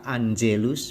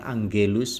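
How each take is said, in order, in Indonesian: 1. g-nya lembut, terdengar seperti j. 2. g-nya keras, seperti pada kata "go". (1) "G diikuti E dibaca J, maka Angelus" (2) "bukan Angelus"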